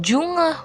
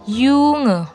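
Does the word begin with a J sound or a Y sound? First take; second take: J sound; Y sound. First: The word begins with an English-like J sound. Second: The word begins with a Y sound. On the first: The speaker calls it wrong. "Bacanya bukan Junge" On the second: The speaker calls it right. "tapi bacanya Junge"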